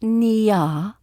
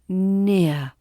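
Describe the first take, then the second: First: The vowel's second part is exaggerated and drawn out. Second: The vowel glides smoothly into a soft ending. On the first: The speaker calls it wrong. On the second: The speaker calls it right.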